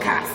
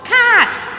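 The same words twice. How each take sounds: First: It is shouted in a deep male voice. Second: It is shouted in a higher female voice.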